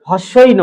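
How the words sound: The two words are run together quickly. The speaker calls it wrong.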